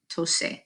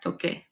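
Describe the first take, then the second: First: The middle consonant is an s sound. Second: The middle consonant is a k sound. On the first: The speaker calls it wrong. "not tose" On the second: The speaker calls it right. "to keep it sounding like this original verb"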